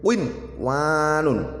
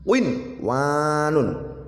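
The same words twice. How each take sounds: No difference in how they are said.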